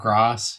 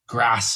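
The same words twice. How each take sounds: First: The a is long, southern English style. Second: The a is short, northern English style.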